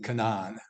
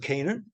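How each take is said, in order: First: The first vowel sounds like 'ah' in 'father'. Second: The first vowel sounds like 'ay' in 'say'.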